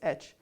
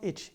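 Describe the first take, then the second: First: It is said with an 'ay' vowel. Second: It is said with a short 'i' vowel. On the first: It names the letter. The speaker calls it right. "it's H" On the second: It means an itch on the skin. The speaker calls it wrong. "No, it's not itch"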